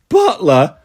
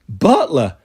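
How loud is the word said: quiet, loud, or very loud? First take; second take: very loud; loud. First: It is said very loudly. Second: It is said loudly.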